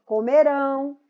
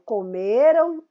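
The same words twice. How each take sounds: First: Comerão with a loud, held final RÃO; comerão, weight on the ending; stress on RÃO. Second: Comeram with a loud, long ME and weak ending; comeram, weight on the next-to-last syllable; stress on ME. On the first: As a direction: push the last syllable of comerão. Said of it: "é a última sílaba mais forte". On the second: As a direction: punch ME in comeram. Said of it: "são paroxítonos". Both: Shown as a demonstration.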